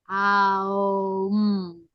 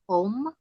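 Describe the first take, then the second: First: It begins with an open 'ah' vowel. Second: It begins with a rounded 'oh' vowel. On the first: "it's more A U M" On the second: "a focus on O M"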